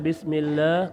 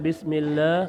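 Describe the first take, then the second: First: The vowel after the l is reduced. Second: The vowel after the l is reduced.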